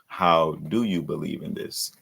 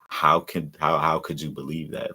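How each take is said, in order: First: It sounds sincerely curious, asking how to believe. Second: It sounds incredulous, as if the belief is unthinkable.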